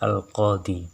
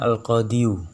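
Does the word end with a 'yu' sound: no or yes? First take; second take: no; yes. First: The word ends on a long 'i' vowel. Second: The word ends with a full 'yu' syllable. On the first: This is the form actually used in speech. "menjadi al-qadi" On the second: This is the full underlying grammatical form. "harusnya al-qadiyu"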